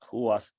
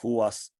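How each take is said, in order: Both takes have the same delivery.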